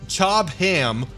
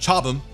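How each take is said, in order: First: The name is said the non-British way. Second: The name is said the British way.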